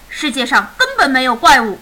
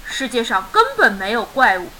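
First: Mildly exasperated raised voice; irritated, loud. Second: Said in the usual way. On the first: A narrator's reading. Sleepless dad dismisses son's monster, loud and irritated. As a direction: snap it out loudly, fed up. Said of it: "烦躁地大声说".

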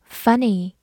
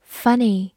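Both takes have the same delivery.

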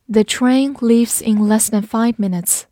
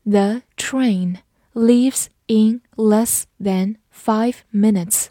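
First: Said in the usual way. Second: Word by word, with gaps between; slow, evenly spaced model reading for learners; slow read-through. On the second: Shown as a demonstration. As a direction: read it out slowly, each word separate. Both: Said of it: "慢读一遍".

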